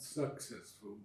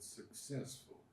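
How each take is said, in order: First: The stress is on the first syllable. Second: The stress is on the second syllable. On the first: The speaker calls it wrong. "Not successful" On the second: The speaker calls it right. "but successful. Suc- second, second uh, uh, syllable"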